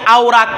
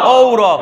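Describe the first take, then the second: First: The first vowel glides like 'aw'. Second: The first vowel is a steady 'o'. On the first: The speaker calls it wrong. "এটাকে আও রাক পড়বেন না" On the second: The speaker calls it right. "কি হবে? ও রক।"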